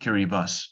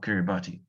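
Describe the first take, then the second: First: The final syllable is said with an s sound. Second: The final syllable is said as a tee sound. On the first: The speaker calls it right. "T I in Kiribati language is S. So it is actually Kiribati" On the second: The speaker calls it wrong. "not Kiribati"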